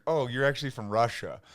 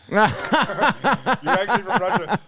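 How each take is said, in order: First: Said in the usual way. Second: Repeated through laughter, higher and louder; laughing repeat. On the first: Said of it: "And I'm like". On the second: Real, not acted. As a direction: crack up as you say it again.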